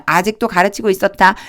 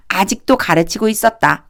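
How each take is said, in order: First: Said in the usual way. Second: 아직도 pushed up front, then the rest falls away; 아직도 lifted above 가르치고 있었다; stress on 아직도. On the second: Shown as a demonstration. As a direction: lean hard on 아직도 to show it means still. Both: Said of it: "그냥 이렇게 생각하면 돼요".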